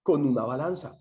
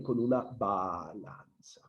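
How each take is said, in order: First: Said in the usual way. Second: Softer, lower, stretching the syllables of balanza; drawn-out "balanza". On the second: Real, not acted. Teacher repeating the student's correct answer, drawn out slowly. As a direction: draw out BA-LAN-ZA slowly and quietly.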